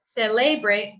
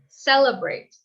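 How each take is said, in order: First: The middle vowel is a full, clear vowel. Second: The middle vowel is a weak uh sound. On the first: The speaker calls it wrong. "instead of celebrate" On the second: The speaker calls it right. "it's more of a U sound"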